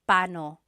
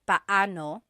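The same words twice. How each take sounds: First: The two middle vowels run together quickly. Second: The two middle vowels are said separately. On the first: "when speaking quickly, Filipinos just say paano" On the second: "When there are two vowels together, you say them separately"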